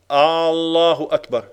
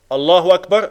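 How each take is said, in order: First: The opening vowel is drawn out long. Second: The opening vowel is kept short. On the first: It asks whether God is the greatest. The speaker calls it wrong. "Är Allah störst blir det?" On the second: It states that God is the greatest. The speaker calls it right. "Allah är störst"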